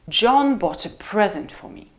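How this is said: The pitch falls from mid to low on present. "It's a low fall"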